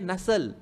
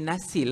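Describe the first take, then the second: First: The second vowel is a muffled 'uh' sound. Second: The second vowel is a clear 'ee' sound. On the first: The speaker calls it right. "I dia tak ada titik. Jadi bunyinya nasıl" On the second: The speaker calls it wrong. "N A S I L patut bunyi nasil lah kan"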